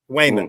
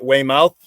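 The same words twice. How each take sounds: First: The name ends with a short 'mit' sound. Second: The name ends with a full 'mouth' sound. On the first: This is how locals born there say it. "W A Y M I T" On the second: This is how outsiders or map apps say it. "They pronounce it Weymouth"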